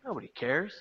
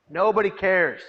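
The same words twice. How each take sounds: First: Quiet, resigned murmur; despairing thought. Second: Much louder, anguished cry; despairing outburst. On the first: Hopeless inner thought after leaving the bus, quiet. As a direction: let it sink in hopelessly. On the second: Inner thought of a despairing young man, anguished and louder. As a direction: burst out in despair. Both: Retold or imitated. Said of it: "I thought".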